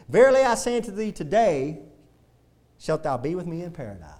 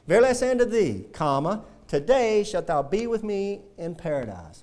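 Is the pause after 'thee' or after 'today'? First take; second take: after today; after thee. First: The pause comes after 'today', not 'thee'. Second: The pause comes after 'thee', not 'today'. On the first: The promise is made today, but paradise comes later. The speaker calls it wrong. "Let me read it how they read it" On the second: The speaker will be in paradise that same day. The speaker calls it right. "See that comma right there? Verily I say unto thee, comma"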